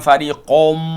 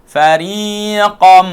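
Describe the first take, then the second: First: The final vowel is rounded with pursed lips. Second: The final vowel is open and unrounded. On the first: The speaker calls it wrong. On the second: The speaker calls it right.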